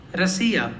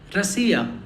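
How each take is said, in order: First: The first vowel sounds like a reduced 'a'. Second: The first vowel sounds like a reduced 'a'.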